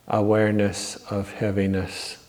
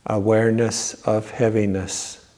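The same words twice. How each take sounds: The two takes are said the same way.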